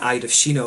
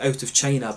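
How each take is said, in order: First: The first syllable sounds like 'eed'. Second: The first syllable sounds like 'out'. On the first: This is how the name is properly said. The speaker calls it right. "I think the correct pronunciation is" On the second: This is how foreigners say the name. The speaker calls it wrong. "a lot of foreigners pronounce it"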